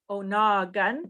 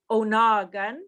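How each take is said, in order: Both takes have the same delivery.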